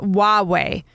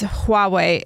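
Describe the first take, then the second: First: The word starts without any H sound. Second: The word starts with an audible H sound. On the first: The speaker calls it wrong. "and not Huawei" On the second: The speaker calls it right. "that that's Huawei"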